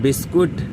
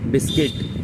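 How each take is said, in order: First: The last vowel sounds like 'oo'. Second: The last vowel sounds like 'i'. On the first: The speaker calls it wrong. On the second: The speaker calls it right.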